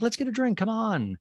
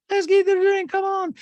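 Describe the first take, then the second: First: Raised-pitch coaxing voice; mocking quote. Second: Piercingly high, loud caricature; exaggerated mocking quote. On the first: Host quotes housewife inviting friend for a drink, higher mock voice. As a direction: lightly mimic her, pitched up. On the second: Host hams up housewife demanding a drink, very high loud voice. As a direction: push it far up high and loud. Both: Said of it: "and she's like".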